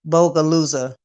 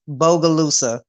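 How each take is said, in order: First: The first syllable sounds like 'bo'. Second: The same.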